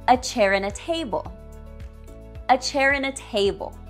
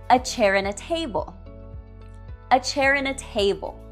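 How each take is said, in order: The two takes are said the same way.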